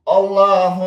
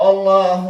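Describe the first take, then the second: No difference in how they are said.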